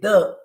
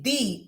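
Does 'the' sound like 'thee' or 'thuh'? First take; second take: thuh; thee. First: The vowel of the word sounds like 'uh'. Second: The vowel of the word sounds like 'ee'. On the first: The next word starts with a consonant sound. The speaker calls it wrong. "we don't say the" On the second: The next word starts with a vowel sound. The speaker calls it right. "Because energy is vowel sound. We say the"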